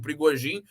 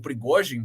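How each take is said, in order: First: The name is said with Portuguese-style sounds. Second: The name is said with Russian-style sounds.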